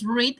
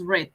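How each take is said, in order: First: The vowel is long, like 'reed'. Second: The vowel is short, like 'red'. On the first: It is the present tense. "read en presente" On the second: It is the past tense. "en pasado es read"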